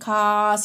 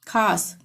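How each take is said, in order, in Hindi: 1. स्वर को लंबा खींचकर बोला जाता है। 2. स्वर सामान्य लंबाई में बोला जाता है।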